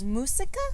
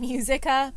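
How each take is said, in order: First: The u is said as a plain 'oo' sound. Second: The u is said like the letter name 'yoo'. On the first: The speaker calls it right. "You say U, so it was música" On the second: The speaker calls it wrong. "I kept saying musica, but you don't say the U in Spanish"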